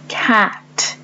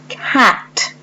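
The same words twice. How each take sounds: First: Cat repeated once more, clearly; Cat said again as a model; repeated model word. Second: Cat spoken as a teaching example; model word. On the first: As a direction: repeat Cat for the class to hear. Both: Shown as a demonstration. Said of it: "this word then has only one syllable".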